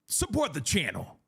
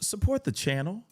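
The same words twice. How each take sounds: First: It is said in an aggressive way. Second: It is said in a smiling, friendly way.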